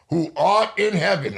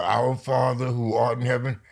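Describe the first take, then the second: First: "art" hit hard, higher and louder, each word pronounced clearly; corrected recitation. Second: Said in the usual way. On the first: Shown as a demonstration. Mother showing the right way to say "Who art in heaven", "art" stressed. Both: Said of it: "No, say it different".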